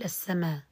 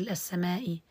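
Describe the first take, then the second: First: السماء ending in a long aa, no glottal stop; ibdal of hamza. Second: Teacher cites the word before changing it, final hamza sounded; السماء with its final glottal stop and short vowel; full final hamza. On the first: Teacher shows substitution in pausing, hamza replaced by long aa. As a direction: say السماء with the final hamza turned into alif. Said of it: "هذا المقصود بالإبدال". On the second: Reciter shows students the original word, full final hamza. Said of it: "بالإبدال". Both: Shown as a demonstration.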